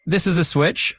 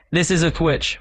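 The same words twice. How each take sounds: First: Lightly British example sentence; UK accent. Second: A hint of classic New Yorker; New York accent. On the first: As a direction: say it with a touch of British pronunciation. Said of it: "So in a U K accent". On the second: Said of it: "And in a New York accent". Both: Shown as a demonstration.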